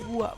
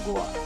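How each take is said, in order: First: The vowel after g is u. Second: The vowel after g is o. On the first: The speaker calls it right. "dilafalkan gua" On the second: The speaker calls it wrong. "bukan goa"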